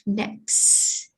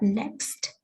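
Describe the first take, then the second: First: The final T sound is dropped. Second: The final T sound is clearly heard. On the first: The speaker calls it right. "it becomes next" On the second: The speaker calls it wrong. "not next"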